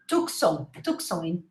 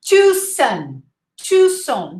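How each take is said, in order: First: Tucson with the C sounded; wrong pronunciation. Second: Tucson with a silent C; Tucson, no k sound at all; correct pronunciation. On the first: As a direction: mispronounce Tucson as TUK-son. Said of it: "think of the wrong pronunciation". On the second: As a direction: say Tucson as TOO-son. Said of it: "We say Tucson". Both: Shown as a demonstration.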